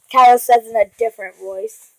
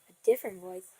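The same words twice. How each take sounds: First: Said in the usual way. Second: Very soft, low echo; low, barely voiced mock-mysterious voice; different voice. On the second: Shown as a demonstration. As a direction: drop it low and hushed. Echoes the phrase in altered voice.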